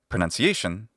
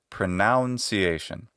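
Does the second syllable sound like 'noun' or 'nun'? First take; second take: nun; noun. First: The second syllable sounds like 'nun'. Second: The second syllable sounds like 'noun'. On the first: The speaker calls it right. "it's just the letter U. None, just like a nun" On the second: The speaker calls it wrong. "that is a solecism"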